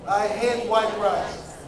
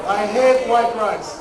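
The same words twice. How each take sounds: First: Said in the usual way. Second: Slow, louder, hate stretched with feeling; with passion. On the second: Shown as a demonstration. Lecturer showing how to say it with passion. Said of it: "say it with a passion".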